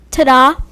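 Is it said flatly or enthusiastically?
flatly. It is said plainly, without much enthusiasm.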